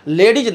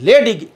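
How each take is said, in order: First: The word ends with a 'z' sound. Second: The word ends with a 'g' sound. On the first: The speaker calls it wrong. "लेडीज नहीं" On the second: The speaker calls it right. "L E Y D I जी"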